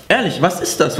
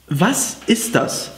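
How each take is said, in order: First: Said in the usual way. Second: Slow puzzled question. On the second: Real, not acted.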